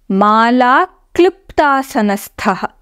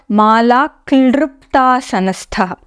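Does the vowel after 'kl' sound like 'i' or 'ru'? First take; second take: i; ru. First: The vowel after 'kl' sounds like 'i'. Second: The vowel after 'kl' sounds like 'ru'. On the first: The speaker calls it right. "The correct pronunciation is mala kliptasanasthah" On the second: The speaker calls it wrong.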